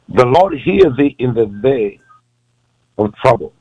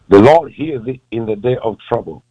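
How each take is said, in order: First: It is read more slowly. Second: It is read at a normal pace.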